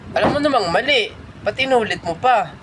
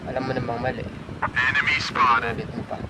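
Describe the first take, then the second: First: It is said in a sarcastic tone. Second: It is said in a disappointed tone.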